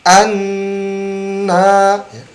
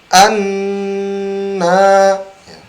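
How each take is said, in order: Both takes have the same delivery.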